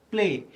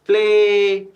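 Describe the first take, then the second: First: Said in the usual way. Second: "प्ले" with the ay held long, loud and high; "प्ले" called out on a raised, sustained vowel; rising vowel sound. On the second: Shown as a demonstration. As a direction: stretch out the vowel at the end of "प्ले". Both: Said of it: "ए का sound rise कर रहा है".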